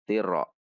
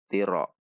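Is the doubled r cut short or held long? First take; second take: cut short; cut short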